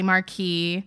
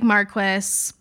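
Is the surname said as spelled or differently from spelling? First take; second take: differently; as spelled. First: The name is pronounced differently from its spelling. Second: The name is pronounced the way it is spelled. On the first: The speaker calls it right. "but it's really Marquis" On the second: The speaker calls it wrong. "It looks like Marquis"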